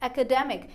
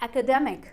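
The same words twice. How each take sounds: First: The stress is on the syllable 'de'. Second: The same.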